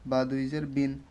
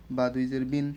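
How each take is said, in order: Both takes have the same delivery.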